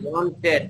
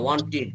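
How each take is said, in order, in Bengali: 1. শেষটা উচ্চারিত হয় খোলা 'ted' ধ্বনিতে। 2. শেষটা উচ্চারিত হয় সংক্ষিপ্ত 'tid' ধ্বনিতে। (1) "ওয়ান্টেড না হবে না" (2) "টিড এভাবে উচ্চারণ করবেন"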